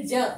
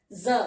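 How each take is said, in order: First: ज said as plain ja. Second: ज with the dot said za, like English Z; za sound. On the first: Teacher demonstrates ज as plain ja to the class. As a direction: say ज as a plain ja without the dot. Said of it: "इसका उच्चारण करेंगे ज". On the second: Teacher shows the nukta ज as za. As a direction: buzz the ज as a za. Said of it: "इसका उच्चारण हो जाएगा ज". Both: Shown as a demonstration.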